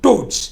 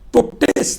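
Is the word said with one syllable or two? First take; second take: one; two. First: The word is said with one syllable. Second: The word is said with two syllables. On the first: The speaker calls it right. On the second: The speaker calls it wrong.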